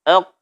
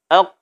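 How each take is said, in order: Both takes have the same delivery.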